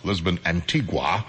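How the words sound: Antigua is said the common way. This is how most people say it. "most people would pronounce this song"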